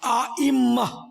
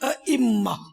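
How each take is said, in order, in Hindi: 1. पहला स्वर लंबा है। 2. पहला स्वर छोटा है।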